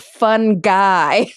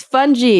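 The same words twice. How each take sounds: First: "fun guy" with hard g, drawn out slowly; hard-g pronunciation. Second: "fungi" said as FUN-jee; soft j and final ee in "fungi"; soft-g pronunciation. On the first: Host quoting the rejected form, "fun guy" with hard g. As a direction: stretch "fun guy" into two slow words, rhyming with sky. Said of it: "It's fungi, not fun guy". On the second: Host quoting a professor's correction, "fungi" as fun-jee. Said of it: "I had a professor once who said". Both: Retold or imitated.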